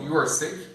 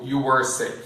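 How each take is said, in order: First: Rising question tune on "You are sick"; "You are sick" with a rising end. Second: Falling statement on "You are sick"; "You are sick" with a falling end; statement tune. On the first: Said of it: "estaria errado". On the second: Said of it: "se você der só a entonação". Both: Shown as a demonstration.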